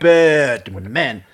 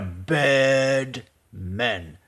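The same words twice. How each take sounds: First: The phrase is said at normal speed. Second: The phrase is said slowly and drawn out. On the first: "Look how he says bad man" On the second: "Now, slowly"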